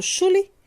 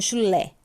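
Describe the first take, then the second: First: "chule" stressed wrongly on CHU, as CHU-le; stress on first syllable. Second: Said in the usual way. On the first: Shown as a demonstration. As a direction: punch the CHU in "chule", let le fall away. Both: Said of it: "Sílaba tônica no lé".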